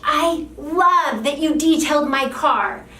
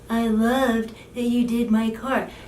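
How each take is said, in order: First: It is said with excited, heartfelt emotion. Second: It is said flatly, without emotion.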